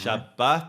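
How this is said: It is said in Mizrahi Hebrew pronunciation. "Shabbat would be say um, Mizrahi, um, North African"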